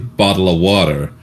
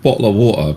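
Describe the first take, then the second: First: It is said in an American accent. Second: It is said in a British accent. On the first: "Americans just say bottle of water" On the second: "Americans get at us for saying bottle of water"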